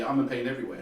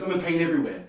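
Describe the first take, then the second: First: Sarcastic. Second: Said in the usual way. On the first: Retold or imitated. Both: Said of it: "almost like sarcastically".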